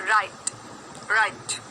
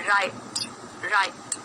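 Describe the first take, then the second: The two takes are said the same way.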